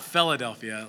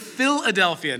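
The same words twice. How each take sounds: First: The start sounds like the word 'fella'. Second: The start does not sound like 'fella'. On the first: The speaker calls it wrong. "not Philadelphia, like a fella" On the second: The speaker calls it right. "It is the word Philadelphia"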